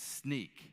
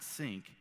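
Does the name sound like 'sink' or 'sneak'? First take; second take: sneak; sink. First: The name is said like 'sneak'. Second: The name is said like 'sink'. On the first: The speaker calls it right. "it's Sneak" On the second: The speaker calls it wrong. "It's not Sync"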